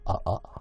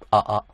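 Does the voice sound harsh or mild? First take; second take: mild; harsh. First: The sound is fuller, rounder and mild. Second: The sound is thin, bright and harsh like old radio. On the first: The speaker calls it right. "この辺の感じの声にすると、だいぶ、マイルドになる" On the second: The speaker calls it wrong. "この辺の音が強すぎるんだよ。昔のラジオっぽく…耳障りでしょ"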